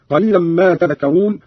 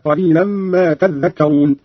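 First: Said in the usual way. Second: تذكرون slowly with doubled ذ, tadhdhakkarun; doubled dhal. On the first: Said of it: "قرأ قالون بتشديد الذال". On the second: Shown as a demonstration. Teacher showing Qalun's reading, تذكرون with doubled ذ. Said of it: "بتشديد الذال هكذا".

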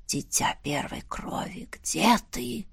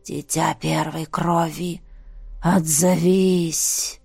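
First: Ghostly whisper, barely audible; eerie whisper. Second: Low, slow eerie summoning voice; низкий зловещий зов. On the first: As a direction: whisper it like a distant spirit. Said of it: "настолько тихим был этот шёпот". (призрачный шёпот) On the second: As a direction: call out slowly like a ghostly voice. Зов голосов во сне. (низкий, медленный потусторонний голос) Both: A narrator's reading.

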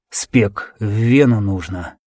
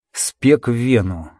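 First: Faint, slow wounded voice; weak slow words. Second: Said in the usual way. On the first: Acted. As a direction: drag each word weakly. Dying soldier's instruction.

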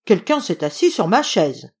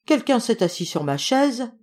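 First: Papa bear's loud, gruff scolding; big gruff bear voice; gruff growl. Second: Mama bear's middle voice, higher pitched; lightly acted, higher mama bear; medium voice. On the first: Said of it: "gronda papa ours de sa grosse voix bourrue". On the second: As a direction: speak as a middle-sized bear, fairly high. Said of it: "de sa moyenne voix". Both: A narrator's reading.

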